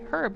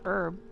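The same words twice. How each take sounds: First: The word starts with a clear H sound. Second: The word starts with no H sound. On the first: The speaker calls it right. "Or the name Herb" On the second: The speaker calls it wrong. "not Herb"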